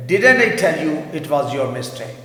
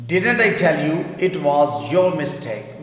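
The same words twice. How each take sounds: First: Slow, louder reading for the class; teacher reads the example slowly; slow model sentence. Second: Even slower, deliberate repeat; teacher repeats the model sentence very slowly. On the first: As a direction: spell it out slowly, stressing didn't. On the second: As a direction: say it once more very slowly for students to copy. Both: Shown as a demonstration. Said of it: "میں نے کہا تھا نا یہ تمہاری غلطی ہے".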